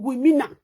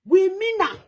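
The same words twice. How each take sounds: First: Said in the usual way. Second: "We mean am" higher and louder, stress on "We"; emphatic repeat. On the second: Shown as a demonstration. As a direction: punch "We" as a firm promise.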